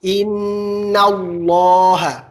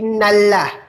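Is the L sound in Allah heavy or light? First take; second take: heavy; light. First: The L in Allah sounds heavy and thick. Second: The L in Allah sounds light and thin. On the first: The speaker calls it right. "Harus tebal" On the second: The speaker calls it wrong.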